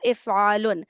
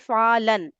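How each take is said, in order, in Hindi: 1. अंतिम सिलेबल स्वर u से खत्म होता है। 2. अंतिम सिलेबल स्वर a से खत्म होता है। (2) "ये ऐसे बोला जाता है ... मंसूब कर देते हैं"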